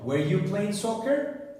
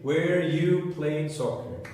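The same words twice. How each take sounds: First: The pitch rises at the end. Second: The pitch stays flat at the end.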